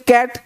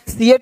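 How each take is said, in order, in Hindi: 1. शब्द की शुरुआत k की ध्वनि से होती है। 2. शब्द की शुरुआत 'see' की ध्वनि से होती है। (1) "सी का उच्चारण क होता है" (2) "सी एट नहीं बोलते"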